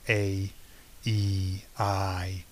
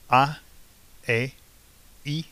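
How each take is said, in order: First: The vowels are drawn out long. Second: The vowels are said short and clipped. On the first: This is how the vowels sound in English. "the vowel sounds tend to be longer ... We string them out" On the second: This is how the vowels sound in Spanish. "they're very, very short sounds"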